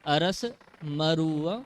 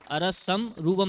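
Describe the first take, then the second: First: The m opens the second word after the break. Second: The m closes the first word before the break. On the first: The speaker calls it right. "अरस मरुव मगन्धम" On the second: The speaker calls it wrong. "अरसम रूवम नहीं बोलना है"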